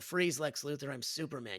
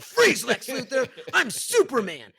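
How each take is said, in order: First: It is said in a plain, ordinary voice. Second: It is said in a put-on heroic voice.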